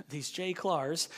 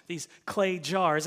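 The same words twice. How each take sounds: First: "J Clars" for clay jars, first sounds swapped; accidental slip. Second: Said in the usual way. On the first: Real, not acted. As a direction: stumble into saying "J Clars", slowly. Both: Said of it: "That doesn't sound right".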